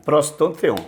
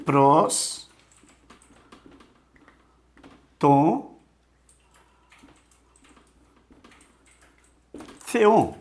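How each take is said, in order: First: Said in the usual way. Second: Pros, Tom, Theon, each said alone with long pauses; slow Greek dictation; word by word. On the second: Shown as a demonstration. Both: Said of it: "Olha só".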